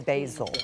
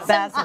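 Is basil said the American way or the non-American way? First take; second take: American; non-American. First: The word is said with an American pronunciation. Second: The word is said with a non-American pronunciation. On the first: "In American, we say basil" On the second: "let's say it her way"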